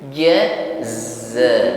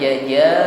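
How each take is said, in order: First: The second consonant has a hissing sound. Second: The second consonant has no hissing sound. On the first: The speaker calls it right. "ucapkan huruf zai ini dengan diiringi bunyi desis" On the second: The speaker calls it wrong. "jangan jaja ya. Ini hilang sifat shafir atau bunyi desisnya"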